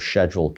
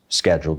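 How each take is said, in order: First: The word begins with a sh sound. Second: The word begins with an sk sound.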